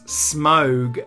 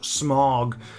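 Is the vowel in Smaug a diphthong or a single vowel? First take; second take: diphthong; single vowel. First: The vowel is a gliding diphthong. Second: The vowel is a single blended sound. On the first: The speaker calls it right. "it's Smaug" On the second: The speaker calls it wrong. "and not Smaug"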